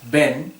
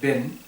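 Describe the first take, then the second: First: The vowel is a full, open 'e' sound. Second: The vowel sits between 'i' and 'e'. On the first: The speaker calls it wrong. "porque E sería ben" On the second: The speaker calls it right. "en vez de ben"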